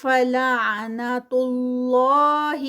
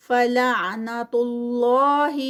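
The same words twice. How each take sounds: First: فلعنت اللہ slow and louder, heavy اللہ; heavy Allah again. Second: فلعنت اللہ slow and louder, اللہ full and heavy; heavy Allah. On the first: Teacher repeating the heavy اللہ. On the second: Teacher showing heavy اللہ. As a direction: recite اللہ heavy after the pesh. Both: Shown as a demonstration. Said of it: "heavy ہوگا".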